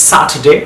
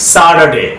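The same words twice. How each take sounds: First: স্যাটারডে with a crisp T in the middle; British "SAT-uh-day" for স্যাটারডে. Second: স্যাটারডে with the T softened to a D; American flapped middle sound in স্যাটারডে; American soft D. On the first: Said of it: "ব্রিটিশরা টি এর মতো sound করছে". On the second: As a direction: say স্যাটারডে the American way, "SA-der-day". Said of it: "আমেরিকানরা ডি এর মতো sound করছে". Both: Shown as a demonstration.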